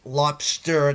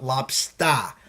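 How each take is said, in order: First: "lobster" slowly, with a careful hard R; pronounced final R. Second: Boston "lobstah", R dropped, drawn out; Boston accent. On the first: Host proving he can say it, "lobster" with full final R. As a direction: sound the R at the end of "lobster". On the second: Host mocking his own speech, Boston accent "lobstah". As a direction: say "lobster" slowly as a Bostonian "lob-stah". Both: Shown as a demonstration. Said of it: "it's the accent".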